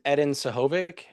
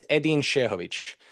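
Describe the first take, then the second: First: The surname is said with an English-style pronunciation. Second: The surname is said with a Bosnian-style pronunciation. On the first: It is the version adapted for English speakers. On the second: It is the name as said in its home language. "my name pronunciation is"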